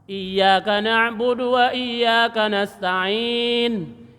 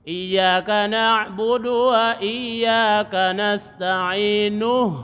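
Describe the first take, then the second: First: The last word stops on a final n. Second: The last word ends with a vowel u. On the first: The reciter pauses after this word. "asalnya kalau di waqaf" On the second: The reciter joins this word to the next. "kalau disambung hilang hamzahnya"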